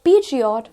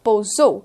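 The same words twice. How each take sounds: First: It is said the common Indian way. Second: It is said the French way. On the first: The speaker calls it wrong. "It is not Peugeot" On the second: The speaker calls it right. "but it is Peugeot"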